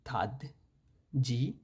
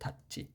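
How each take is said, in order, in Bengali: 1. দ্বিতীয় ব্যঞ্জনটি একটি নরম 'j' ধ্বনি। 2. দ্বিতীয় ব্যঞ্জনটি একটি টানটান 'ch' ধ্বনি। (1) "হওয়ার কথা ছিল" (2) "এটা হচ্ছে"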